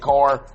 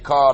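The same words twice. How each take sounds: First: The final R sound is strong and clear. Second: The final R sound is soft and weak. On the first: This is how the speaker talks after living in California. "the way I enunciate my R's" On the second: This is how the speaker used to talk. "I don't say car no more"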